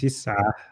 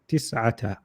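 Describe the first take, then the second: First: The word ends without the final 'ta' syllable. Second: The word ends with a final 'ta' syllable. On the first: The reader stops on this word. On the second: The reader continues on without stopping.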